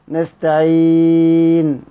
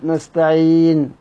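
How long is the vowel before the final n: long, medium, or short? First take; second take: medium; short. First: The vowel before the final n is medium length. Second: The vowel before the final n is short. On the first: "توسط" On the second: "كسر"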